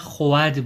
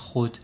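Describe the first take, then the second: First: The vowel is pronounced to rhyme with bad. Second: The vowel is pronounced not rhyming with bad. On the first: This is the old pronunciation. "قدیم هم خب تلفظ این کلمه خود بوده" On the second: This is the modern pronunciation. "الان ما میگیم خود"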